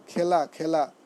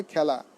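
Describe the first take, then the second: First: খেলা with a closed "e", "khay-la"; common mispronunciation. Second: খেলা with an open "æ", "khæ-la"; correct pronunciation. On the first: Teacher showing the common error, খেলা said "khay-la". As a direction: say খেলা wrongly with an "ay" vowel. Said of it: "ভুল উচ্চারণ করি". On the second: Teacher answering their own question, খেলা said "khæ-la". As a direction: say খেলা with the vowel of "cat". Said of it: "কী হবে?". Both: Shown as a demonstration.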